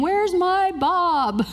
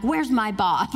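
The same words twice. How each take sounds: First: High, slow, whiny complaint; mock-whiny fan asking for Bob; disappointed audience member. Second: Said in the usual way. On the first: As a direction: pout it like a let-down fan. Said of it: "I could hear people in my imagination saying". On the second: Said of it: "I'm like".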